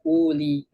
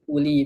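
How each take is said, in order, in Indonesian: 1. Vokal pertama panjang dan dipanjangkan. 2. Vokal pertama pendek, tidak dipanjangkan. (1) "bukan dibaca uli" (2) "nggak dibaca panjang di sini wawunya"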